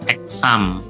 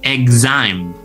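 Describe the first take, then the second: First: It starts with an eks sound. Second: It starts with an igz sound. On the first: The speaker calls it wrong. "tidak dilafalkan seperti ini ya, exam. Nah, ini salah ya" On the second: The speaker calls it right. "X di sini berubah menjadi ig"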